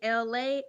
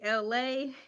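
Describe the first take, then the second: First: The name is said as one word, Elay. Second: The name is said as two letters, L-A. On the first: The speaker calls it wrong. "L A pronounced like E L A Y" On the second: The speaker calls it right. "L A pronounced L A like the city"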